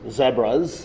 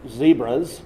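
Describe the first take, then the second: First: It is said imitating another person's pronunciation. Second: It is said in the speaker's usual pronunciation.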